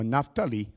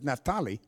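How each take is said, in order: First: The pitch goes up at the end of the name. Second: The pitch stays level at the end of the name.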